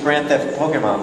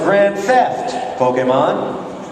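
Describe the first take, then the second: First: Pokemon runs straight on from grand theft. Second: A pause comes before Pokemon, said as an address. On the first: The crime is stealing a Pokemon. The speaker calls it right. "like Grand Theft Auto" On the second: The speaker is addressing a Pokemon. The speaker calls it wrong. "She thought she was addressing the Pokemon"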